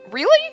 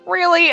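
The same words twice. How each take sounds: First: The word sounds shocked and surprised. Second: The word sounds skeptical and disbelieving. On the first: The speaker is genuinely surprised. "Like you're shocked" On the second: The speaker thinks the claim is nonsense. "As in, bullshit, dude"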